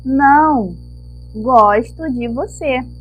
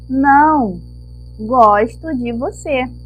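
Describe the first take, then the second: First: It is said with a pause after não. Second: The same.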